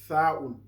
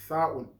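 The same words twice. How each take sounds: Both takes have the same delivery.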